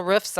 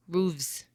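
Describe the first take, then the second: First: Said in the usual way. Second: Roofs said as ROOVZ, long oo and v sound. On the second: Shown as a demonstration. Vlogger wondering aloud about the plural, saying rooves. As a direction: try Roofs as rooves, softly. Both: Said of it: "Is it roofs or is it roofs".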